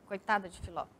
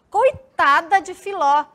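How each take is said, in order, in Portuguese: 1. É dita como uma afirmação simples e neutra. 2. É dita como uma exclamação emotiva. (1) "se fosse só o ponto, uma afirmativa" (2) "a exclamação ela já dá esse tom mais, né? Uma entonação diferente"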